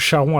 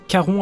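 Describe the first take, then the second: First: The name begins with a ch sound. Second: The name begins with a k sound. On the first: The speaker calls it wrong. "avec C H" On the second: The speaker calls it right. "avec le que"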